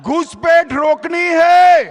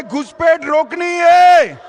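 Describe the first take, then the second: First: Loud rally slogan; rally shout. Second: Shouted rally slogan; louder rally shout. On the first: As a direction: call it out to the crowd. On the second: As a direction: belt it out again for the crowd. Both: Real, not acted. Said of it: "जोर से बोलिए".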